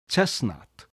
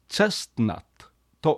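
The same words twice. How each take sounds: First: The T sound in the middle is dropped. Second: The T sound in the middle is pronounced. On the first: The speaker calls it right. "T を初めから発音しない" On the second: The speaker calls it wrong. "T を発音するのではなくて"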